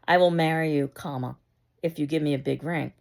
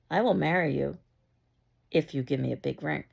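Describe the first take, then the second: First: There is a short pause after "marry you." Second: There is a long pause after "marry you."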